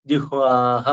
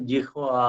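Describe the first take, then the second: First: ജിഹ്വാഹ with "ha" after the long "aa"; visarga sounded. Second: ജിഹ്വാ held open on "aa", no final "ha"; ends in long "aa". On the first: Teacher giving the correct ending, ജിഹ്വാഹ with "ha". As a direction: finish ജിഹ്വാഹ on an audible "ha". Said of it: "ജിഹ്വാഹ എന്നാണ്". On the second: Teacher showing the bare ending, ജിഹ്വാ with open "aa". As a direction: leave ജിഹ്വാ on its long vowel, softer. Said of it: "ആ എന്ന് അവസാനിക്കുന്ന". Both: Shown as a demonstration.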